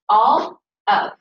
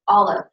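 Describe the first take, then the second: First: The two words are said slowly and separately. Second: The two words run together quickly as one. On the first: "saying these slowly" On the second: "can you say it quickly?"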